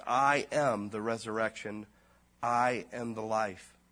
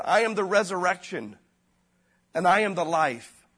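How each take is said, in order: First: Slow and weighty, every I am leaned on; I am the resurrection with a hard stressed I, then a pause. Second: Higher and louder, I am the resurrection proclaimed; loud proclamation. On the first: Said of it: "He says". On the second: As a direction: declare I am the life from the pulpit. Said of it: "Jesus Christ said". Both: Retold or imitated.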